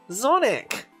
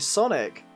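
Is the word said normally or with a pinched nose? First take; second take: pinched nose; normally. First: It is said nasally with the nose pinched. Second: It is said in a normal voice.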